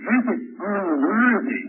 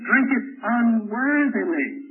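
First: "unworthy" drawn out slowly as the rejected word; slow, deliberate weight on "unworthy"; contrast on UNWORTHY. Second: "unworthily" slowly stretched out, ending on a distinct -ly; contrast on UNWORTHILY. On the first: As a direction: set up "unworthy" slowly, as the wrong reading. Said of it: "Paul doesn't mean drink it unworthy". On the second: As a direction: correct it with a slow, deliberate "unworthily". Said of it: "He means drink it unworthily". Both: Shown as a demonstration.

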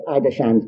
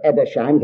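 First: Edersheim's opening with "eye", as EYE-der-shime's; Edersheim's begun like the word "eye"; first pronunciation variant. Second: Edersheim's opening with a short e, as ED-er-shime's; Edersheim's begun like the name "Ed"; second pronunciation variant. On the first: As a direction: say Edersheim's with a long i at the start. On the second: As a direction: say Edersheim's with "ed" at the start. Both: Shown as a demonstration. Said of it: "however you like to pronounce it".

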